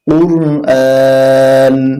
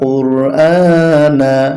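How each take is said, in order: First: The word ends on the n consonant. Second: The word ends with a short a vowel. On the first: The reader stops here. "এখানে থামলে হবে" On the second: The reading continues without a stop. "নুন জবর না"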